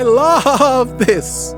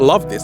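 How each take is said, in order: First: It is said warmly, with real feeling. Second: It is said flatly, without feeling. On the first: The speaker truly cares about the work. The speaker calls it right. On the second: The words are said without real care. The speaker calls it wrong.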